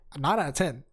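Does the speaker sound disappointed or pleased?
pleased. It is said in a bright, pleased tone. The rating is a happy improvement. The speaker calls it right.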